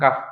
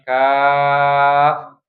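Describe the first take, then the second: First: The vowel is short and cut off quickly. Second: The vowel is held long before ending. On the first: The speaker calls it wrong. "jangan jangan langsung kaf" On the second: The speaker calls it right. "tapi kaf. Panjangin dulu"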